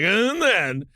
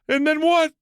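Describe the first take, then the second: First: It sounds bored and desensitized. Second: It sounds eager and shocked.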